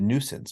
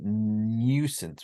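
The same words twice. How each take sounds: First: No y-glide comes before the oo vowel. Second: A y-glide comes before the oo vowel. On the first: The speaker calls it right. "We said nuisance" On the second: The speaker calls it wrong. "we didn't say nuisance"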